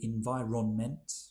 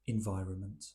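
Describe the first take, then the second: First: Each syllable is pronounced separately and fully. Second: The syllables are run together and reduced. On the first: The speaker calls it wrong. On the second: The speaker calls it right.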